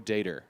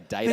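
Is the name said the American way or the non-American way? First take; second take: American; non-American. First: The name is said with an American pronunciation. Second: The name is said with a non-American pronunciation. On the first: This is how the man himself says his name. "he pronounces it Joe Dater. ... he's American" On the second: This is how the speakers themselves would say it. "so we'd say Data"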